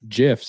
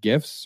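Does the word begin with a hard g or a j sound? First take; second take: j sound; hard g. First: The word begins with a j sound. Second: The word begins with a hard g sound.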